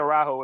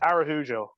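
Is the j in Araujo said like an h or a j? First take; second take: h; j. First: The j is said as an h sound. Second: The j is said as a j sound. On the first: This is the Spanish way. "it would be Araujo if it was Spanish" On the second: This is the Portuguese way. "it's it's Araujo"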